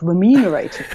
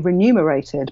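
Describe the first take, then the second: First: The consonant sounds follow the spelling order. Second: Two consonant sounds are swapped from the spelling. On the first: This is how the word is written. "but it's spelled remunerated" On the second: This is how everyone actually says it. "We all say remunerated"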